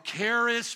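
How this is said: The word is pronounced in an English way.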